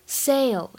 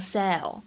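First: The vowel glides as a diphthong. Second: The vowel is a single flat sound. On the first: The speaker calls it right. "Sail 当中是双元音的a" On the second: The speaker calls it wrong. "不要给我读成sail"

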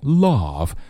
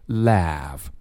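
First: The vowel is said the British way. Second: The vowel is said the American way. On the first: "不是英式的那种love" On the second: "美式发音当中的这个laugh 读的是四号梅花音"

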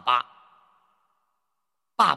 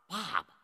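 First: The second syllable carries a full tone. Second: The second syllable is light and toneless. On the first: The speaker calls it wrong. "你把它读成妈妈、爸爸" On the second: The speaker calls it right. "前面我们说的妈妈、爸爸"

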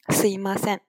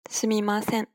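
First: The middle syllable is reduced to 'i'. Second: The middle syllable is said fully as 'mi'.

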